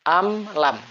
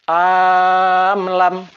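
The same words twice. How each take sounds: First: The opening vowel is kept short. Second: The opening vowel is drawn out long. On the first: The speaker calls it right. "cara membacanya adalah pendek" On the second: The speaker calls it wrong. "dipanjangkan. Misal am lam salah"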